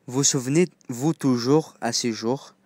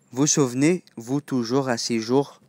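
Both takes have the same delivery.

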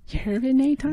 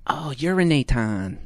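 First: High squeaky rising "Urinaton?"; Fran Drescher voice. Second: Said in the usual way. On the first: Acted. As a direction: squeal the word back. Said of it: "How does Fran Drescher talk?".

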